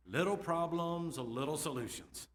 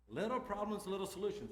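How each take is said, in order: First: The two "little"s leaned on, slow and deliberate; slow slogan. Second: Higher, bright repeat of the motto; "little" lifted high both times, quicker; sing-song slogan. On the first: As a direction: land each word of "Little problems, little solutions" slowly. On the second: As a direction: toss off "Little problems, little solutions" higher up. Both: Shown as a demonstration. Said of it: "heard me say this many times".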